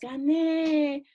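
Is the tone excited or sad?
excited. It is said in an excited, euphoric way.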